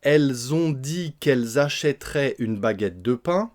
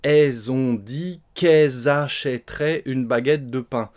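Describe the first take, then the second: First: Every sound of 'elles' is fully pronounced. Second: The L of 'elles' is dropped, S linked.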